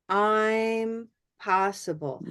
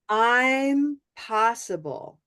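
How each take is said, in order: First: The first syllable is long and fully stressed. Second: The same.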